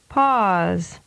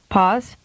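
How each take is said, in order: First: The vowel is prolonged. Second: The vowel is held briefly. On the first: "and then with a longer duration" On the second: "with a short vowel duration first"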